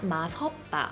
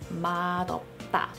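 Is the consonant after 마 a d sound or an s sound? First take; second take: s; d. First: The middle consonant sounds like s. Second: The middle consonant sounds like d. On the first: The speaker calls it wrong. "It's not" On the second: The speaker calls it right. "it's 맛없다 because 맛 and 없다 are two separate words"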